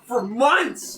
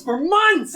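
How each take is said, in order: First: Angry. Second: Louder, higher repeat of "months"; angry shout. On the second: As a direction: throw it out louder the second time. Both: Real, not acted. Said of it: "I'm so angry".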